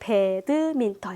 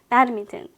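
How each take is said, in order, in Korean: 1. 네 개의 또렷이 나뉜 음절로 발음됩니다. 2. 더 적은 수의, 이어져 발음되는 음절로 발음됩니다. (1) "우리말로 배드민턴 이렇게 사음절이지만" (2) "배드민턴 이렇게 들리기도 하잖아요"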